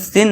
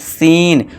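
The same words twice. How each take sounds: First: The vowel is short and clipped. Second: The vowel is long and drawn out. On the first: The speaker calls it wrong. "इसे हम सीन नहीं करेंगे" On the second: The speaker calls it right. "लॉन्ग खींचना है"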